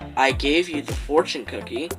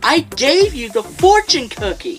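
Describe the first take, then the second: First: It is flat and monotone, without expression. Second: It is lively and expressive, with passion. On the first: The speaker calls it wrong. "the monotone voices and non-expressive voices" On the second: The speaker calls it right. "my rendition of it, ... the expressive, the passionate voices"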